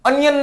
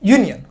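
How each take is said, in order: First: The word starts with a plain vowel sound. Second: The word starts with a 'y' sound. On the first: The speaker calls it wrong. "અનિયન નથી કહેવાતું" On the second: The speaker calls it right. "યુનિયન લખેલું છે"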